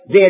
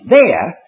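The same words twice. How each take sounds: First: The word is said lightly, without emphasis. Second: The word is said with strong emphasis. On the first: It only says that something exists. The speaker calls it wrong. "don't say, "There is neither." That's using the word "there" in the sense that we use it" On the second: It points to a particular place. The speaker calls it right. "Emphasize it, there"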